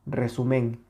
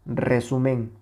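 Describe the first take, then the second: No difference in how they are said.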